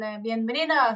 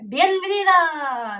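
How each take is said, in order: First: Said in the usual way. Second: "bienvenida" stretched slowly, much higher and louder; hammed-up Spanish welcome. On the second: Shown as a demonstration. Welcoming viewers in Spanish, slow and loud "bienvenida". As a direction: sing out "bienvenida" with a grand Spanish flourish. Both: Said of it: "greets viewers in Spanish".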